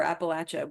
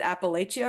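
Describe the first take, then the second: First: "Appalachia" as app-uh-LATCH-uh; Appalachia, short A. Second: "Appalachia" as app-uh-LAY-chuh; Appalachia, long A. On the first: Contrasting regional variants for listeners, "Appalachia" as app-uh-LATCH-uh. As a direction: say "Appalachia" with LATCH in the stressed syllable. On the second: Contrasting regional variants for listeners, "Appalachia" as app-uh-LAY-chuh. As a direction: say "Appalachia" with LAY in the stressed syllable. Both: Shown as a demonstration. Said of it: "not one wrong way to pronounce it".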